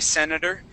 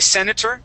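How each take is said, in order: First: The middle consonant is a soft D sound. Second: The middle consonant is a clear T sound. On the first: It sounds casual and informal. "switch that T to a D sound" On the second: It sounds official and respectful. "pronounce that T"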